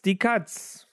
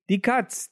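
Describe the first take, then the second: First: Die punched high at the start, Katz falling away; alarmed call stressing die. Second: Katz called out high, with the weight on Katz; alarmed call stressing Katz. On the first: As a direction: repeat the warning, hitting die. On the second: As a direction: cry the warning, leaning on Katz. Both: Acted. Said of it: "Willibald rief".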